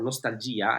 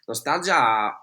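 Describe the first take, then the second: First: The word has an Italian pronunciation. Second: The word has an English pronunciation.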